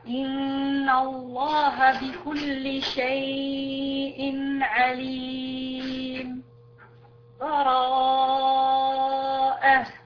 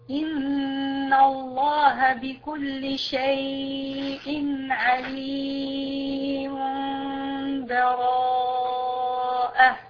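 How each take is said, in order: First: A brief pause without a breath before the last word. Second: The words run together with no pause between them. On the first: "الآن سكت" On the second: "الوصل"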